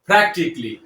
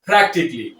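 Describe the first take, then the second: Both takes have the same delivery.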